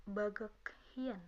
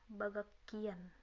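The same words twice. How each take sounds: First: "bagak hien" slowly, with an audible h; slow, separate words in "bagak hien"; read as written. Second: "bagak kian" with the h turned into k; natural reading. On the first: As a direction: sound out "bagak hien" as spelt. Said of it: "cara bacanya dari cara menulisnya". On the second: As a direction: say "bagak kian" with a held hard k. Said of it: "atau bisa dibaca". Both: Shown as a demonstration.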